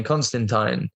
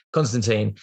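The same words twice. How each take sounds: First: Constantine with a long I in the last syllable; mispronounced surname. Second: Constantine with a long EE in the last syllable; corrected surname. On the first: Actor first naming the photographer, mispronounced surname. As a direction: end Constantine like "tine", rhyming with "line". Self-corrects the surname's pronunciation. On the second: Actor correcting the photographer's surname, careful pronunciation. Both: Real, not acted.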